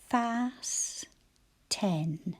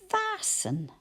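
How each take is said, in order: First: It is split into two parts with every sound. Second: It is said as one smooth natural word. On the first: This is the way to say it when spelling. "Let's give it a spelling language" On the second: This is the way to say it when reading. "That's how we tend to say it"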